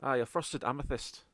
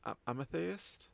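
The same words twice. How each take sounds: First: AMETHYST said assuredly in Scottish, falling at the end; Scottish accent. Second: AMETHYST attempted slowly in Scottish, rising like a question; tentative Scottish accent. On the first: Acted. Contact confirming the gem to party, settled Scottish accent. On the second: Shown as a demonstration. Game master trying a tricky word, unsure Scottish accent. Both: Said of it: "say the word properly in a Scottish accent".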